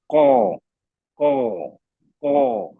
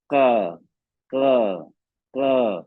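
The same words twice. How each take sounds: First: कौ pushed hard from the throat; heavy qaf demo. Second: का said lightly from the mouth, no throat pressure; wrong light version; light kaf demo. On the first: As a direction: correct heavy version. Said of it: "गले में जोर दे रहा हूँ". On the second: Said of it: "अभी आवाज भारी है, हल्की है". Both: Shown as a demonstration.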